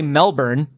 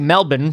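First: It is said in an American way. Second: It is said in an Australian way. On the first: "I want to say Melbourne, and that's wrong" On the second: "that's what every Australian tells me to say"

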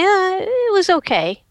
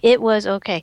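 First: It is said with a doubtful, hesitant inflection. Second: It is said flatly, as plain words. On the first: There was a problem worth asking about. "There was a problem" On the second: The experience was acceptable. "those are just words"

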